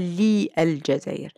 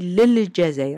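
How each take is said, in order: First: The preposition and article are said separately. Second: The preposition and article are joined together. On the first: This is the formal standard Arabic form. The speaker calls it wrong. "On ne dit pas li al Jazair" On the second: This is the everyday dialect form. The speaker calls it right. "on dit lil Jazair"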